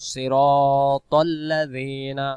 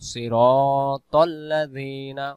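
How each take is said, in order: Both takes have the same delivery.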